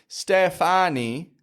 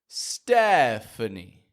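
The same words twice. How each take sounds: First: Every vowel in the name is fully pronounced. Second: Only the first vowel is full; others are weak. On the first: The speaker calls it wrong. "We don't pronounce all of the vowels strong, like Stephanie" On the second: The speaker calls it right. "but Stephanie"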